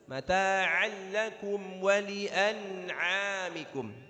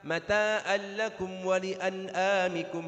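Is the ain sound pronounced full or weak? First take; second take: full; weak. First: The ain sounds are pronounced fully and clearly. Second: The ain sounds are weakened, not fully pronounced. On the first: The speaker calls it right. "harus ... Ainnya harus disempurnakan" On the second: The speaker calls it wrong. "Hati-hati jangan sampai kita baca"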